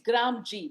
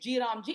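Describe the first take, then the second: First: G and Ram run together as one word, gram. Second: G and Ram are said as separate parts. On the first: The name refers to the village. The speaker calls it right. "That's how the pronunciation is" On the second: The name refers to Lord Ram. The speaker calls it wrong. "don't change names and say it's G Ram G"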